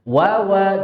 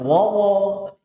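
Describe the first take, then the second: First: The vowel is light and thin, like a. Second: The vowel is heavy and rounded, like o. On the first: The speaker calls it right. "wawa jangan wawo" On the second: The speaker calls it wrong. "jangan wawo"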